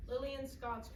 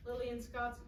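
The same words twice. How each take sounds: The two takes are said the same way.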